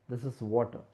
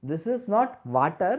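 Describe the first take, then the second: First: Said in the usual way. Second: "water" said oddly, a mispronounced contrast take; wrong way to say water. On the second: Shown as a demonstration. Teacher showing a mispronunciation of "water". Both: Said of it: "If you ask me, "What is this?".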